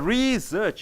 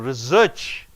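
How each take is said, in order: First: The stress is on the first syllable. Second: The stress is on the second syllable. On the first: It is a noun. "A research, it is a research" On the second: It is a verb. "you're searching on search"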